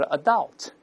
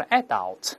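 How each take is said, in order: First: "adult" stressed on the last syllable, uh-DULT; American "adult", weak first vowel, strong second syllable; American end stress. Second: "adult" stressed on the first syllable, AD-ult; British "adult", strong open "a" up front. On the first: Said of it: "但美国人都是adult". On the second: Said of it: "英国人都是adult". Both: Shown as a demonstration.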